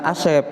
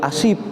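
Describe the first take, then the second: First: The second vowel sounds like 'eh'. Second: The second vowel sounds like 'ee'. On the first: The speaker calls it right. "bukan Asep" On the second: The speaker calls it wrong. "dipanggil Asip"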